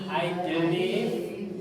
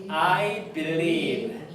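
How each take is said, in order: Both takes have the same delivery.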